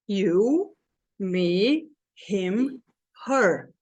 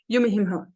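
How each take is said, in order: First: Each word is stressed with a pause after it. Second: The words are run together quickly without pauses.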